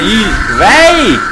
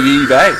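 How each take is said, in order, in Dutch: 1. De naam wordt met een levendige, opvallende melodie uitgesproken. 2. De naam wordt eenvoudig uitgesproken, met een vlakke melodie. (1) "ik zei Yi-Wei" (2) "je moet gewoon nuchter uitspreken"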